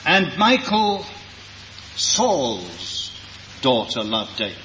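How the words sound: The stress falls on the word daughter. The lover was the child of his jealous enemy. "To emphasize the fact that it was the daughter of a man who was insanely jealous of David"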